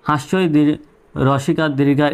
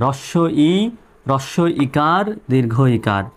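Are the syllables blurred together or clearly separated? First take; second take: blurred; clear. First: The syllables are blurred and run together. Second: Each syllable is pronounced clearly and separately. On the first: The speaker calls it wrong. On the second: The speaker calls it right.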